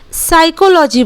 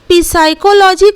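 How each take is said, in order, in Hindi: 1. यह शब्द s ध्वनि से शुरू होता है। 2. यह शब्द बोली जाने वाली p ध्वनि से शुरू होता है। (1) "साइकोलॉजी बोलते हैं" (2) "हम लोग पी साइकोलॉजी कभी नहीं बोलते हैं"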